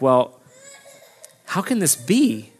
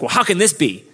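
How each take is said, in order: First: It sounds curious and open. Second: It sounds skeptical and defensive.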